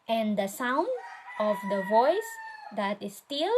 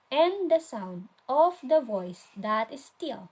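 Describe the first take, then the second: First: "and the sound / of the voice / that is still" with a rise ending each group; grouped in threes. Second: "and the sound of the voice that is still" run on as one phrase, falling at the end; emphasize the starts of the groups in "and the sound of the voice that is still"; alternative reading. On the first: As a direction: pause after SOUND and VOICE, lifting SOUND, VOICE, STILL. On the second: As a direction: read "and the sound of the voice that is still" through, dropping on STILL. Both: Shown as a demonstration. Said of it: "How do we read it?".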